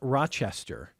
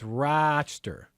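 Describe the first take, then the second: First: The middle syllable is said fully. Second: The middle syllable is nearly swallowed. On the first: The speaker calls it wrong. "it's not Rochester" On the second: The speaker calls it right. "about a syllable and a half"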